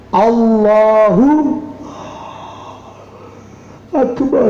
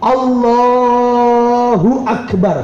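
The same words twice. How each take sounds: First: A pause separates Allahu from akbar. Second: Allahu and akbar run together without a pause. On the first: The speaker calls it wrong. "Yang tidak sah dipisah" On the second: The speaker calls it right. "Yang sah adalah Allahu akbar langsung"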